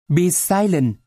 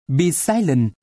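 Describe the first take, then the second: No difference in how they are said.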